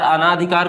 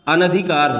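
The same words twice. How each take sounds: First: अनाधिकार said with a long aa after न; wrong pronunciation. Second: अनधिकार said with short न, no long aa; correct pronunciation. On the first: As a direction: stretch the aa in अनाधिकार as the wrong form. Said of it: "अनाधिकार कुछ नहीं होता". (अनाधिकार को लंबे आ के साथ गलत रूप में) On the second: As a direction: say अनधिकार as an-dhi-kaar, three clear beats. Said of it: "अनधिकार होता है". (अनधिकार को छोटे अ के साथ बोलिए) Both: Shown as a demonstration.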